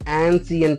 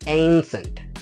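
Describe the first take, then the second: First: The first vowel sounds like the a in cat. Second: The first vowel sounds like the ay in day. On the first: The speaker calls it wrong. "యాన్సియంట్ అని పలుకుతూ ఉంటాం, కానీ exact తప్పు పలుకుతున్నాం" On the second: The speaker calls it right. "ఇది ఈ విధంగా అనమాట"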